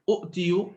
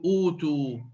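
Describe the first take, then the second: First: Two glottal stops come in a row, the second vowelless. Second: One glottal stop is followed by a long vowel. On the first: This is the older underlying form. "لم يكونوا ينطقون همزتين متتاليتين ثانيهما ساكنة" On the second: This is the form actually used. "أبدلوا الهمزة الساكنة حرف مد"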